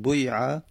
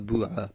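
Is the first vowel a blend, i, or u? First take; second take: blend; u. First: The vowel blends i with a rounded u. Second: The vowel is a pure u sound. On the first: "با اشمام بگیم که مخلوطی از کسر و دم" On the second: "لغت سوم"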